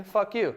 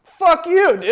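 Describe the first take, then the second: First: Said in the usual way. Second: Much higher, louder playful outburst; mock outrage. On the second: Real, not acted. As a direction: yell it in fake offense. Defending grown men's baths.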